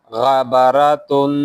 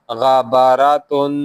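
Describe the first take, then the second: Both takes have the same delivery.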